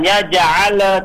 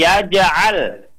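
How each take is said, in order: First: Yaj'al with the lam bouncing off the palate; yaj'al lam released too early; wrong yaj'al. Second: Yaj'al with lam held, smooth; yaj'al lam kept steady; right yaj'al. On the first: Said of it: "jangan yaj'al". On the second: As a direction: show the correct yaj'al. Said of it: "tapi yaj'al". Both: Shown as a demonstration.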